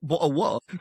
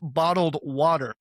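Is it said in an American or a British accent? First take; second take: British; American. First: It is said in a British accent. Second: It is said in an American accent.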